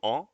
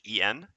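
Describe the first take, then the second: First: The word is pronounced the French way. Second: The word is pronounced the Spanish way. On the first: "to on in French" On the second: "en in Spanish"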